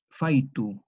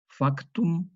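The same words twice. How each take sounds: First: Faitu with the k turned into i, FAI-tu; vocalized faitu, k gone; k as yod. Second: Factum with a clear k, FAK-tum; Latin factum. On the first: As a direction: say faitu with an i glide in place of k. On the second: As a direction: sound the k in factum. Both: Shown as a demonstration. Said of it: "se vocalice en una yod".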